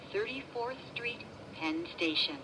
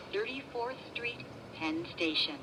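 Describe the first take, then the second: No difference in how they are said.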